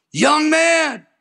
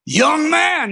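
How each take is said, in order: First: High, ringing stern call; stern divine summons, volume four; stern voice of the Lord. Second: High, ringing stern call, a notch stronger; louder stern voice of the Lord. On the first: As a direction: call out like a commanding voice from heaven. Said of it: "That was volume four". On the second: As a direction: call out the summons with more force. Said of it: "Now it's a volume six". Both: Retold or imitated.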